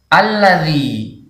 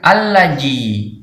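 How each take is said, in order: First: The middle consonant is a soft 'dh' sound. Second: The middle consonant is a 'j' sound. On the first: The speaker calls it right. "yang benar alladzi" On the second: The speaker calls it wrong. "bukan allaji"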